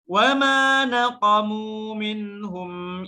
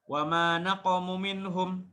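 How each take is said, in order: First: The final vowel of naqamu is held long. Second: The final vowel of naqamu is cut short. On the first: The speaker calls it right. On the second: The speaker calls it wrong.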